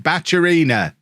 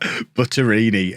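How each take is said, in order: First: The middle consonant is a 'ch' sound. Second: The middle consonant is a plain 't' sound. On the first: The speaker calls it right. "Probably still saying it wrong, but it's better than Butterini" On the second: The speaker calls it wrong. "can't even say his name"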